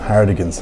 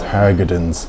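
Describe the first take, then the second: First: The consonant after 'Har' is a d. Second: The consonant after 'Har' is a g. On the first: The speaker calls it wrong. "I was just reading Hardigans" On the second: The speaker calls it right. "It's actually H A R G O D, so it's Hargadons"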